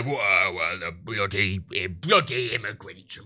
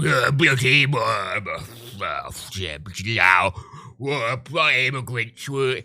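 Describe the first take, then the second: First: Low, slow grumbling bloke saying bloody immigrants; a lightly voiced sarcastic bigot grumble; bigot impression. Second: Piss-take of a grumbling bigot; sarcastic bigot voice. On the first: Mocking a bigot for stream viewers, low sarcastic grumble. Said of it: "you do the, "Whoa," voice". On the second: Retold or imitated. Showing a voice clip would sound like a piss take, low sarcastic bigot. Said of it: "in a sarcastic tone like that".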